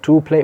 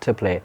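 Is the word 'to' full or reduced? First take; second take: full; reduced. First: The word to has a full vowel. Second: The word to has a reduced vowel. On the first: The speaker calls it wrong. "Not to play" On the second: The speaker calls it right. "but to play. ... I'm using the weak forms of these words"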